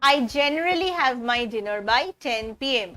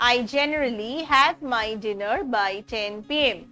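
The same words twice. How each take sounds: Both takes have the same delivery.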